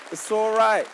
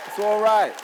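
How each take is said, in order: Both takes have the same delivery.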